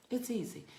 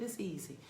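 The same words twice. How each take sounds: First: It's easy lifted higher, pushed out; higher, insistent "It's easy"; emphatic repeat. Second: Said in the usual way. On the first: Shown as a demonstration. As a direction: lift "It's easy" up to sell it. Repeats reassurance, second higher.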